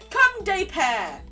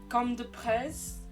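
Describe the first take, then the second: First: The name is said without a final 's' sound. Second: The name is said ending in an 's' sound. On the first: The speaker calls it right. "is how you pronounce that" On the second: The speaker calls it wrong. "you can correct me on that. Very sorry"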